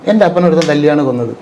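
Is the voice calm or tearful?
calm. It is said calmly, without crying. The pain is conveyed without the actor weeping. The speaker calls it right. "ഇങ്ങനെയല്ലേ ഞാൻ പറഞ്ഞുള്ളൂ"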